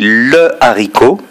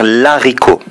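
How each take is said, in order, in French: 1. L'article garde sa voyelle devant le nom. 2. La voyelle de l'article tombe devant le nom. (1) "On dit le haricot" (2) "on ne peut pas non plus dire l'haricot"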